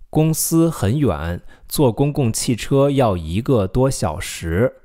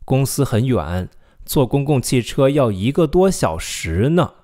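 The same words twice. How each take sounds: First: Slow, careful read ending without 呢; slow model sentence. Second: Slow read with an added emphatic 呢 at the end. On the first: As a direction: model it slowly for repeating. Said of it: "how do you say". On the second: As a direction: stress the final 呢 to show it is a long commute. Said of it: "If you want to add more emphasis". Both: Shown as a demonstration.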